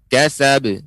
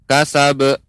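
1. Pantulan b di akhir singkat dan ringan. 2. Pantulan b di akhir dipanjangkan dan dikuatkan. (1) "tidak dikuatkan... Tapi dia hanya pantulan saja" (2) "jangan sampai qalqalahnya nampak seperti ya dipanjangkan. Kasab, tidak"

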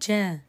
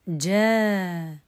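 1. تُمَدّ الحركة الطويلة لمدة حركتين. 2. تُمَدّ الحركة الطويلة لمدة أربع حركات. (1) "القصر" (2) "التوسط"

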